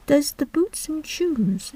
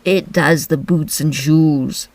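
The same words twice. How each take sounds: First: Higher, softer, slow puzzled echo; wondering. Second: Slow, solemn Griffin; grave and drawn out. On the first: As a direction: wonder aloud, baffled. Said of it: "in a wondering tone". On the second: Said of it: "replied very solemnly". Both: Acted.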